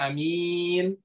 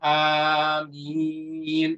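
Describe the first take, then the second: First: The first vowel is short, the second long. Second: Both vowels are long. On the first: It means honest. "a-nya pendek, mimnya panjang" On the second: It means asking God to answer prayers. "dibaca panjang hamzahnya dan dibaca panjang mimnya"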